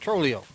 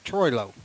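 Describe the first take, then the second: First: The first syllable does not sound like 'troy'. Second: The first syllable sounds like 'troy', then 'low'. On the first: The speaker calls it wrong. "I've been pronouncing it Trolio. That's wrong" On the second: The speaker calls it right. "Should be Troilo"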